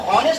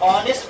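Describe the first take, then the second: First: The word begins with an h sound. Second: The word begins with a vowel sound. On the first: The speaker calls it wrong. "इसको हॉनेस्ट नहीं पढ़ते हैं" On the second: The speaker calls it right. "एच silent है, ऑनेस्ट पढ़ते हैं"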